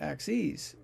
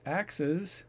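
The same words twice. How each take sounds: First: It is said like the plural of axis. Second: It is said like the plural of axe. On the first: It means more than one graph line. The speaker calls it wrong. "not axes" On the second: It means more than one chopping tool. The speaker calls it right. "It's pronounced axes, it's the plural of the word axe"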